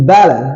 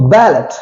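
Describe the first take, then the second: First: Ballet as "bal-e", open vowel end; silent final T. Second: Ballot with the final T sounded, "bal-et"; wrong pronunciation. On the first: Teacher giving the French loan word, silent final T. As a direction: leave the T off ballet. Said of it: "is silent". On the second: Teacher showing the mistake, wrong pronunciation. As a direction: end ballot on a clear T. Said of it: "it's not ballot". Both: Shown as a demonstration.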